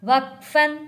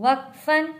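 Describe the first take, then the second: Both takes have the same delivery.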